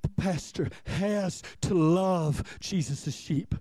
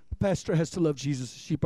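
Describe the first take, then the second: First: "has to love" spaced out slowly; slow, deliberate emphasis. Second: Said in the usual way. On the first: Shown as a demonstration. Pastor laying down his duty to the congregation, slow and deliberate. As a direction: weigh out each word of "has to love".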